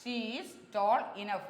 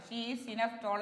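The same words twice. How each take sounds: First: "she is tall enough" said slowly and clearly, leaning on "tall"; teacher modelling "she is tall enough" slowly; slow model sentence. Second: Said in the usual way. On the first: Shown as a demonstration. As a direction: spell out "she is tall enough" word by word for the class. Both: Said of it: "എന്നല്ല".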